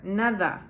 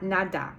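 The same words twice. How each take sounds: First: Nada with a soft th sound for the d; soft Spanish d. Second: Nada with a hard English d; wrong American nada. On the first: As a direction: say nada like "natha". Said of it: "stick the word the in the middle". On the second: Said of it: "It is not nada". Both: Shown as a demonstration.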